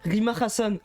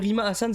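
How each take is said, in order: First: Hassan starts with a breathy H sound. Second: Hassan starts straight on the vowel. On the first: It mimics how a news channel says the name. The speaker calls it wrong. "C'est dur à prononcer en disant le Hassan en plus" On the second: It is the ordinary way to say the name. The speaker calls it right. "Alors que Rima Hassan, c'est- tu peux le dire"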